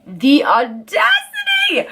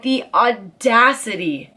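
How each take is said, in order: First: Outraged shout. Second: Said in the usual way. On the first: Retold or imitated. Telling viewers about his nerve, slow indignant high cry. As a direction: shout the audacity up high in disbelief. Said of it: "And he had the audacity".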